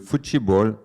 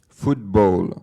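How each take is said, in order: First: The word is pronounced the Brazilian Portuguese way. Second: The word is pronounced the English way. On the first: The word had become part of local speech. "c'est devenu le football" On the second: The word was still treated as foreign. "prononcer le mot du sport à l'anglaise"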